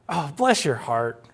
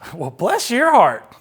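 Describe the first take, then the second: First: It sounds sincere and grateful. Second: It sounds sarcastic and condescending.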